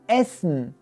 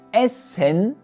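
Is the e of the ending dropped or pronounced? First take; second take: dropped; pronounced. First: The e is dropped, ending straight on n. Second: The e in the final syllable is clearly pronounced. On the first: The speaker calls it right. "Sie lassen dann einfach das E weg und sagen gleich das N" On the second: The speaker calls it wrong. "die Deutschen sagen nicht"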